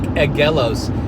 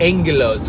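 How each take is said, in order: First: The first syllable is said as 'ag' without n. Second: The first syllable is said as 'ang' with n. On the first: The speaker calls it wrong. "it looks like agelos" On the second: The speaker calls it right. "the way that that word agelos sounds is en, angelos"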